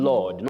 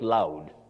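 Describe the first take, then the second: First: The vowel sounds like 'aw' in law. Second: The vowel sounds like 'ow' in loud. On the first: The speaker calls it right. "the sound in this case for A U is O" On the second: The speaker calls it wrong.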